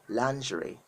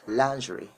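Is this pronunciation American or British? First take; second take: British; British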